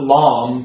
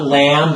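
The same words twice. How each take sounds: First: LAMB said as "lahm"; too-long vowel. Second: LAMB with a spread, bright "a"; everyday American nasal vowel in lamb; wrong wide vowel. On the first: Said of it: "but not lamb". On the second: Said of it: "so not lamb". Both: Shown as a demonstration.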